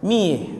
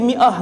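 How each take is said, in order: First: The word is shortened to one syllable. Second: The word is said in full, two syllables. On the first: This is how locals say it in everyday speech. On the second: This is the standard form of the word.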